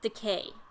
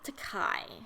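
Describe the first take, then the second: First: The last syllable sounds like 'kay'. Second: The last syllable sounds like 'kai'. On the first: The speaker calls it right. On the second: The speaker calls it wrong. "I might accidentally go back to saying Takai"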